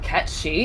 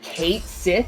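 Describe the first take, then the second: First: The name sounds like 'Ket Shee'. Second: The name sounds like 'Kate Sith'. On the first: The speaker calls it right. "instead of Ket Shi" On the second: The speaker calls it wrong. "They're pronouncing it Kate Sith"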